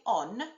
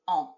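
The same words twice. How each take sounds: First: The N is pronounced as a clear, hard consonant. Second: The N is only a nasal sound in the throat. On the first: The speaker calls it wrong. "I don't say on, do I?" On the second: The speaker calls it right. "It's like the N is sitting in the back of my throat"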